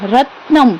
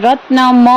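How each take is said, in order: First: The final m is short and light. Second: The final m is said with heavy force. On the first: The speaker calls it right. "જો રત્નમ એમ બોલવાનું" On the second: The speaker calls it wrong. "નહીતર રત્નમ એમ આપણે બોલતા નથી"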